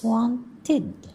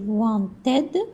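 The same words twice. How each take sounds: First: The ending is pronounced like short 'id'. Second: The ending is pronounced like 'ed'. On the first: The speaker calls it right. "it's wanted" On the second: The speaker calls it wrong. "Don't say wanted"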